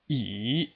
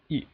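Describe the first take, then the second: First: The pitch dips in the middle, then rises. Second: The syllable is short, with no distinct contour. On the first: "there's a slight dip in the middle" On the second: "it sounds very quick"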